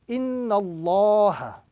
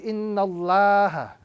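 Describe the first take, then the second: First: The vowel in Allah sounds full and round. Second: The vowel in Allah sounds thin and flat. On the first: The speaker calls it right. "the correct pronunciation ... with a round sound" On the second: The speaker calls it wrong. "not a flat sound"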